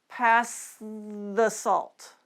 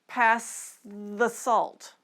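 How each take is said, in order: Both takes have the same delivery.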